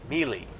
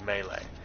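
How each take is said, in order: First: It is said like 'mee-lee', rhyming with 'me'. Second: It is said like 'may-lay', rhyming with 'day'. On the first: "some people who pronounce it melee because of the way it's spelled" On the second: "I always understood the pronunciation to be melee"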